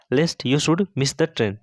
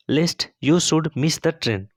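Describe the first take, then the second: First: Slow dictation. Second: Slow whispered dictation. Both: Shown as a demonstration. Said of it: "teacher models English sentence slowly".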